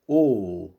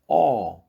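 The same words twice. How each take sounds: First: The vowel is said closed, further back. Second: The vowel is said with an open mouth. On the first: "o O modifica"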